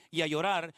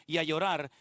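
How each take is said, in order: Both takes have the same delivery.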